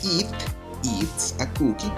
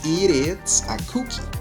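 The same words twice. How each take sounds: First: The t in 'it eats' is a clear t. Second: The t in 'it eats' is a soft flap. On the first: "podemos decirlo también" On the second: "en inglés americano estadounidense es muy común eh, hacer este tipo de pronunciación con la T"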